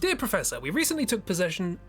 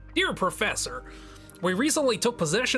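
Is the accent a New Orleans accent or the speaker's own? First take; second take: own; New Orleans. First: It is read in the speaker's own accent. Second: It is read in a put-on New Orleans accent.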